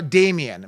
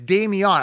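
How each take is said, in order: First: The ending sounds like the name Damien. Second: The ending sounds like the word neon. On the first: This is how other people say the name. "people say it's Dameon. Uh, so no, Damien" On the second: This follows the name as it is spelled. "I'm clearly reading what's there. Like I remember the old neon car"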